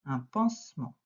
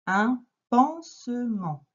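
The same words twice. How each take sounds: First: Said in the usual way. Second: "Un pansement" drawn out slowly, syllable by syllable, a bit louder; slow sounding out. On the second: Shown as a demonstration. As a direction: sound out "pansement" slowly for a child learning to read. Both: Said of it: "Tu lis le premier mot".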